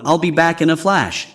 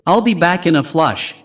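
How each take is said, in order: First: "flash" said with the open vowel of "cat", not "flush"; original flash. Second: "flush" said with the vowel of "flush", not "flash"; flush pun. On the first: Teacher gives the original phrase "flash" after the pun. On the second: Teacher contrasts the bathroom pun "flush" with "flash". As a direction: land the pun: "in a flush" rhymes with rush. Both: Shown as a demonstration. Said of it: "is a humorous twist on".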